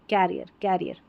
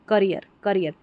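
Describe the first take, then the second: First: The first vowel is open, like 'cat'. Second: The first vowel is short, like 'cut'. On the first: "दोनों उच्चारण सही है" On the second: "करियर लिखा है"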